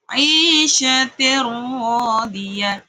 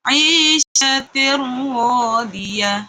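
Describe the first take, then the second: No difference in how they are said.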